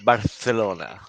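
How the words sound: The name is pronounced with Spanish sounds. "the Spanish call it"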